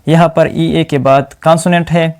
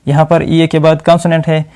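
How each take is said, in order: Both takes have the same delivery.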